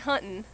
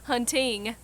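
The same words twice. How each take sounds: First: The word ends with a plain n sound. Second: The word ends with an ng sound. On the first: "ending with the N" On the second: "ending with a G"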